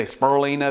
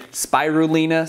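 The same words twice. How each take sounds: First: Spirulina squeezed to "spur-LEE-nuh"; Southern pronunciation. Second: Spirulina with a full "spy-roo" start; full-syllable pronunciation. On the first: Showing viewers how Southerners say it, spirulina as spur-LEE-nuh. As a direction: say spirulina with the first syllables merged into "spur". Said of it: "if you're from the South". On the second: Showing viewers how some people say it, spirulina as spy-roo-LEE-nuh. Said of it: "Some people ca-, say spirulina". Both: Shown as a demonstration.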